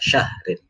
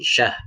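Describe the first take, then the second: First: The word ends with an added -in sound. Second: The word stops on a bare final r. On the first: The reading joins straight on to the next verse. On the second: The reading pauses at the end of the verse.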